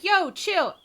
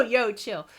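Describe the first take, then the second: First: Higher, louder mock slang "Yo, chill"; mock slangy mom. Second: Said in the usual way. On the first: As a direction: toss off "Yo, chill" like street slang. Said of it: "she didn't talk like that". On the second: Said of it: "She, she didn't go".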